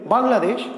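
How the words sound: The word is said in one unbroken go. "আমি যদি একবারে বলি"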